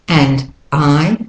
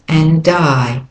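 First: The two words are said separately. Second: The D links onto the second word.

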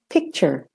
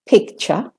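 First: It is spoken in an American accent. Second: It is spoken in a British accent. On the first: "and American" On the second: "British way first"

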